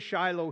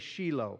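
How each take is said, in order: First: It is said the North American way. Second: It is said the Israeli way. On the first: "we say Shiloh here in North America" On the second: "In Israel, they say Shiloh"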